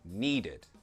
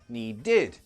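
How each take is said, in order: First: The stress is on the first syllable. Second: The stress is on the last syllable. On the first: The speaker calls it right. "the ed, it's never stressed" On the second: The speaker calls it wrong. "never that"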